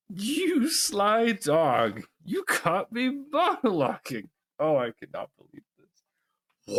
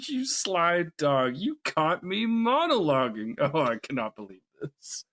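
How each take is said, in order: First: Very slow, high gloating villain; slow theatrical villain menace. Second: Slow, high mocking villain drawl; theatrical villain gloat. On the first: Acted. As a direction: drag it out with smug glee. Second take of villain quote. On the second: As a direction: savor each word like a smug villain. Quoting Syndrome villain lines.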